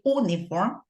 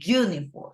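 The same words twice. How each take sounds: First: The word begins with a plain vowel sound. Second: The word begins with a 'y' consonant sound. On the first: The speaker calls it wrong. "We don't say uniform" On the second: The speaker calls it right. "we say uniform"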